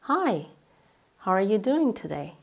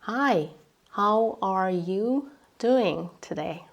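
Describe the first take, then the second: First: It is said at fast native speed. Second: It is said slowly.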